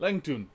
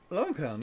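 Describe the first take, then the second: First: The name is said in a Scottish accent. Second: The name is said in a plain accent.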